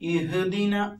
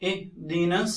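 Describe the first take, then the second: First: A short vowel follows the consonant. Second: The consonant is closed with no added vowel. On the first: The speaker calls it wrong. "ഇഹ്ദിന എന്ന് പൊതുവെ നമ്മൾ പറഞ്ഞു പോകാറുണ്ട്" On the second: The speaker calls it right. "ഇഹ് just touch ചെയ്ത് പോയാൽ മാത്രം മതി"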